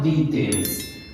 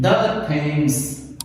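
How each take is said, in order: First: The word 'the' is said as 'thee'. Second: The word 'the' is said as 'thuh'. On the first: The speaker calls it wrong. "not the Thames" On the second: The speaker calls it right. "So you will read it the Thames"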